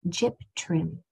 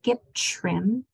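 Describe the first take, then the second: First: The t before the r is a clear t. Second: The t before the r sounds like ch. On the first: The speaker calls it right. "Enunciate that T as it was intended" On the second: The speaker calls it wrong. "be careful that you don't say a C H right here for that T sound. It's not"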